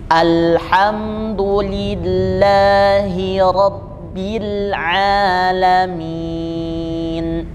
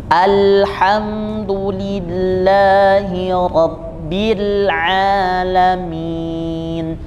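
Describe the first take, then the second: No difference in how they are said.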